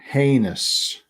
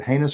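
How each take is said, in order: First: The first vowel is a long A sound. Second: The first vowel is a short A sound.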